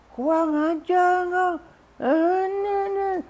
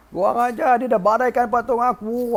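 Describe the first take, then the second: First: Very high, drawn-out furious squeal; hammed-up scream of outrage; mock enraged scream. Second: High-pitched ranting, short of screaming; mock rampage. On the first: Husband sees his broken idol, mock enraged scream. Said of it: "aku tak nak jerit". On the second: Husband rages over his broken idol, mock rampage. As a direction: act furious, sparing the throat. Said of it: "Wah, mengamuk orang tu".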